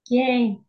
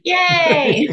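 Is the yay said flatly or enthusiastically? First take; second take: flatly; enthusiastically. First: It is said with little enthusiasm. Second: It is said with much more enthusiasm.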